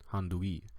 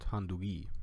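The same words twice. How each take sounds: First: The middle g is soft and breathy. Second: The middle g is soft and breathy.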